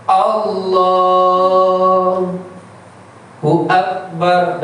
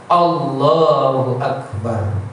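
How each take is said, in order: First: "Allahu" stretched slowly, then a long break before "Akbar"; pause in the middle. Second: "Allahu Akbar" said slowly and smoothly in one unbroken breath. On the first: Teacher showing the wrong takbir with a break inside it. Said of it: "tidak boleh berhenti antara lafaz Allah dan Akbar". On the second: Teacher showing the right takbir in one breath. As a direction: join "Allahu" and "Akbar" without stopping. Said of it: "Harus satu nafas, satu iring". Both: Shown as a demonstration.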